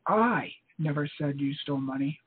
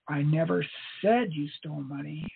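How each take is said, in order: First: The stress is on "I". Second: The stress is on "said".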